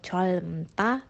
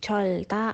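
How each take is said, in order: First: Both l and m are sounded before ta. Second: Only an l is sounded before ta. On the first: "atau colmta" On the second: "bukan colta"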